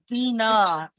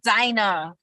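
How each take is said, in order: First: The first syllable sounds like the letter D. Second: The first syllable does not sound like 'dee'. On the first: The speaker calls it right. "It is Dina. ... D dot na" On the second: The speaker calls it wrong. "My name is not Dinah"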